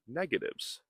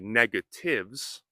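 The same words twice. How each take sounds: First: The word is said quickly with sounds reduced. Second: The word is said slowly with every sound clear. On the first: "if we are speaking quickly, we can practice saying negatives" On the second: "We could say negatives"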